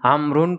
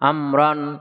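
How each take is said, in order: First: The name ends with an -un sound. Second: The name ends with an -an sound. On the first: The name is the subject of the sentence. "আমরুন পড়ি, তাও ঠিক থাকছে" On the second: The name is the object of the verb. "আমরান নসব পড়া যাচ্ছে"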